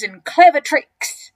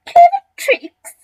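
First: Loud, slow, proud boast; enormous crocodile, smug. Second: Very high, loud squealed echo; scornful cry. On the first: Acted. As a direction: savour the words as a schemer. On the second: A narrator's reading. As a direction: shriek it back in mock disbelief. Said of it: "cried the not so big one".

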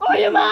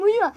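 First: Loud scold. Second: Said in the usual way. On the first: Real, not acted. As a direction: shout it higher and louder. Repeats louder at brother.

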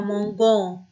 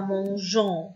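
First: "مونجون" with a hard g, as mon-gon; wrong hard G. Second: "مونجون" with a soft zh sound, as mon-zhon; "مونجون" said slowly as mon-ZHON. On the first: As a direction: mispronounce "مونجون" with g as in go. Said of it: "لا، ما ينفعش، غيرنا شكل الفعل". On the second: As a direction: keep the French j sound in "مونجون". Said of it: "تحافظ على نطق ال جي". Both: Shown as a demonstration.

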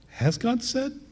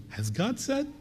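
First: "Has God said?" with a sharp questioning rise on "said"; uptick in the tone. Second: "Has God said?" rising high and soft at the end; questioning uptick. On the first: Preacher demonstrating Satan's doubting uptick. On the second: Preacher repeating the serpent's insinuating question. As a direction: sow doubt by rising on "said". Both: Shown as a demonstration. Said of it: "That little uptick in the tone, the intonation".

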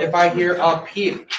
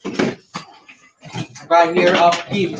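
First: Said in the usual way. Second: Slow, drawn-out threat with I stretched; slow warning. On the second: Acted. Teacher warning the class to stay silent, slow and drawn out. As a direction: stretch each word out like a warning.

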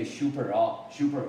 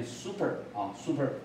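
First: Taiwanese-style "super" starting with "shoo"; Taiwanese pronunciation. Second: American "super" with a clean s, "SOO-per"; American model of "super", plain "soo" start; American pronunciation. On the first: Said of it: "那在台湾". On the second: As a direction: say "super" American-style, no sh sound. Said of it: "美国人是念". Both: Shown as a demonstration.

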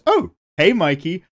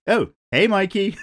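First: Higher, louder hammed-up hello; mock movie greeting. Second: Said in the usual way. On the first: Shown as a demonstration. Rereading a viewer comment, a hammed-up louder hello. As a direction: greet Mikey like a bad film line. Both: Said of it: "right in the middle it just goes".

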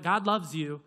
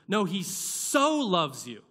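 First: Said in the usual way. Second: "so" drawn out slowly and leaned on; stress on so. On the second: Shown as a demonstration. Preacher corrects the congregation, slow weight on "so". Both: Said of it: "Doesn't say God loved us".

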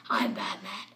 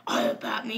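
First: Said in the usual way. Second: Slightly lowered, softer Batman voice; dark Batman voice. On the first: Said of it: "you can just do this". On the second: Shown as a demonstration. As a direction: lightly put on the dark hero voice. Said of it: "you don't have to".

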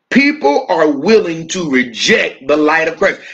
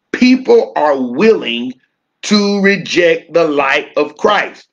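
First: Said in the usual way. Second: Slow, with willing leaned on and stretched; stress on willing. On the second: Shown as a demonstration. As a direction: let "willing" land hard and slow. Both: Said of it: "I wanna place emphasis on the word willing".

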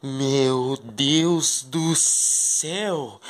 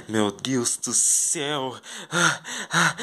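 First: Very slow, hushed amazement; breathless wonder at the garden; awed. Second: Slow, softer whisper of wonder; quiet amazed sigh; awed. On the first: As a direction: draw it out in wonder. Seeing the secret garden. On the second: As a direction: let it fall away in awe. Still amazed by the garden. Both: Pretend.

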